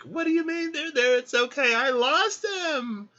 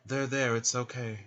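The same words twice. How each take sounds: First: Loud, very high hammed-up wail; mock distraught. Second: Lightly acted soothing; mock comforting. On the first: Woman at the coffin to her comforter, mock distraught. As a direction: wail back in pretend outrage and grief. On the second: Man patting the weeping woman's back, mock comforting. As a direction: play at consoling someone with a pat. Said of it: "she gets a pat on the back".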